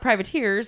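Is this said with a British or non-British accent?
non-British. It is said in a non-British way.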